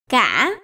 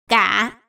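First: The syllable is said on a broken rising tone. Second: The syllable is said on a heavy, low tone. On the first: "ngã" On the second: "nặng"

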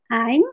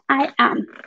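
First: It is said as one contracted syllable. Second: It is said as two separate syllables. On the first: "este se pronuncia I'm" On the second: "este se pronuncia I am"

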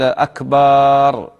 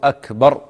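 First: The vowel after the b is lengthened. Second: The vowel after the b is short. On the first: The word comes to mean a drum. The speaker calls it wrong. "يمد باء أكبر" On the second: The word means greater. The speaker calls it right. "إذن يقول الله أكبر هكذا"

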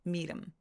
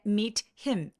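First: The h is dropped and the t flapped. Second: The h in him is clearly pronounced. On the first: "이런 식으로 T를 굴려서 소리 내셔도 돼요" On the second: "meet him 이렇게 발음하지 않았죠?"

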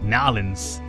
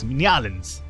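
First: It is said clipped, in a local accent. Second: It is said in a plain standard way.

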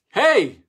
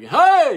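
First: It is called out less loudly. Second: It is shouted very loudly, crier-style.

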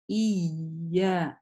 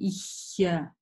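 First: The vowels join cleanly with no breathy sound. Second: A breathy h-like sound comes before the vowel. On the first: The speaker calls it right. "Нет, «ия»" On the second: The speaker calls it wrong. "получается звук похож на «х» какой-то"

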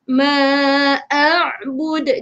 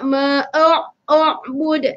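First: The first vowel of a'bud is a clear a. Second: The first vowel of a'bud sounds like o. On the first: The speaker calls it right. "Jelaskan huruf a tu" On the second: The speaker calls it wrong. "jangan sebut o. Tak nak"

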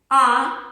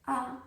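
First: The vowel is said at normal volume. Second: The vowel is said quietly, with voice.

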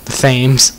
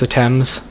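First: Thames is said with an exaggerated American pronunciation. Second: Thames is said with the usual British pronunciation. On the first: The speaker calls it wrong. "Say it really American" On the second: The speaker calls it right. "But it's pronounced the Thames"

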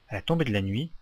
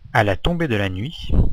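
First: The phrase is read at a normal pace. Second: The phrase is read more slowly. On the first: "lecture du texte intégral de la dictée" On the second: "je vais reprendre la dictée un peu plus lentement"

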